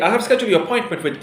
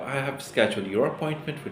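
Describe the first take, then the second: First: It is spoken quickly and hurriedly. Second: It is spoken at a calm, slower pace. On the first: The caller sounds rushed and unprofessional. The speaker calls it wrong. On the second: The caller sounds clear and professional. The speaker calls it right.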